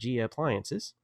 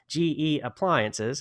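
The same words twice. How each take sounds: First: The phrase is slurred and unclearly articulated. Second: The phrase is clearly and carefully articulated. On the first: The speaker calls it wrong. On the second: The speaker calls it right.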